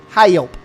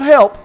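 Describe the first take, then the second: First: The word is drawn out into two syllables. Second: The word is said as one short syllable. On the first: The speaker calls it right. "It's two syllables" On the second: The speaker calls it wrong. "no, not help"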